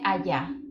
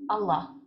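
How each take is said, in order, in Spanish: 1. Se lee con sonidos españoles para la doble L. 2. Se pronuncia con los sonidos originales del árabe. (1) "esto en español se lee allá" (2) "nos vamos al idioma original, que es el árabe"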